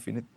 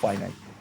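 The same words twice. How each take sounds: First: It is said with a Sundanese-style pronunciation. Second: It is said with a standard English pronunciation. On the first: The speaker calls it wrong. "orang Sunda ngomongnya finite" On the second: The speaker calls it right. "Yang benar bacanya finite"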